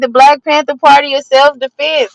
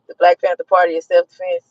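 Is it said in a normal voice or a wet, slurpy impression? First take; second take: normal; wet impression. First: It is said in the speaker's normal voice. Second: It imitates a man with a wet, spitting mouth.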